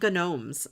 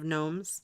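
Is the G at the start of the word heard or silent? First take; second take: heard; silent. First: The word starts with a hard G sound. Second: The word starts with a plain N sound. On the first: It is a playful way of saying it. "I call them gnomes sometimes, just for fun" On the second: It is the usual way of saying it. "instead of gnomes"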